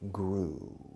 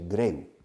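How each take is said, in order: First: The vowel is a single long 'oo'. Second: The vowel glides from 'eh' to 'oo'. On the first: The speaker calls it right. "No, grew" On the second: The speaker calls it wrong. "many of you say greu"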